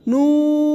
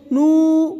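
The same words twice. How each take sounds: First: نون ending clearly on n; full نون; correct noon. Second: نو without the final nasal n; clipped نو; wrong no. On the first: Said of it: "آخر میں نون کی آواز آئے". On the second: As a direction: stop نو before the n. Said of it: "یہ غلط ہو جائے گا". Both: Shown as a demonstration.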